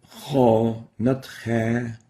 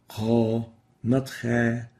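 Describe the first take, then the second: The two takes are said the same way.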